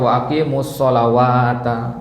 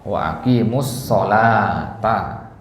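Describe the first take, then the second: First: A w sound is read inside the word. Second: No w sound is read inside the word. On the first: The speaker calls it wrong. "jangan dibaca" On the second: The speaker calls it right. "enggak. Wa aqimus sholata"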